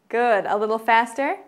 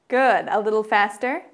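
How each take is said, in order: Both takes have the same delivery.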